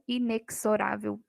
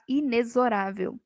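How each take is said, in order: First: "inexorável" with the x as KS, inekzorável; "inexorável" said with a hard KS; wrong KS sound. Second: "inexorável" with the x as Z, inezorável; "inexorável" said clearly with a Z, not KS; correct Z sound. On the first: Teacher imitates the wrong "inexorável" with KS. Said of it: "e não". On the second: Teacher gives the correct "inexorável" to the class. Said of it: "O correto é falar". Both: Shown as a demonstration.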